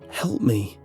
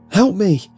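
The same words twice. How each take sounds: First: It is said faintly and quietly. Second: It is said loudly.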